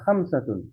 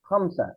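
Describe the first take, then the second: First: The word ends in a full '-atun' sound. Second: The word ends in a plain '-a' sound. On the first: This is the complete form of the word. "খামসাতুনের ওটা হলো পুরোপুরি উচ্চারণ" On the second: The speaker stops after the word. "থামলে হলো ওই যে তাটা হা হয়ে যায়, তখন খামসা হয়"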